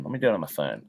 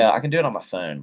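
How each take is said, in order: First: Muttered to himself. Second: Said in the usual way. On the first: Real, not acted. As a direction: lower and much softer, half to himself. Streamer repeats to himself.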